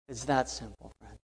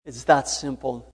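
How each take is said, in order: First: Much softer, intimate echo; soft repeat. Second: Said in the usual way. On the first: Real, not acted. Preacher repeating the point to a friend, softly. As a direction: drop it down, personal.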